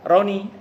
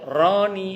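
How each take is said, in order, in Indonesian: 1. Vokal pertama diucapkan pendek. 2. Vokal pertama ditarik panjang. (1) "Kalau pendek" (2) "Makanya Roninya jangan dipanjangkan"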